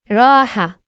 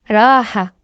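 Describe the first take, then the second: Both takes have the same delivery.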